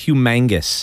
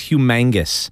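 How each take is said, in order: First: The middle syllable sounds like 'mang'. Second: The same.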